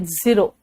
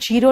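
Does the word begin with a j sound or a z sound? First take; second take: z sound; j sound. First: The word begins with a z sound. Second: The word begins with a j sound. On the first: The speaker calls it right. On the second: The speaker calls it wrong.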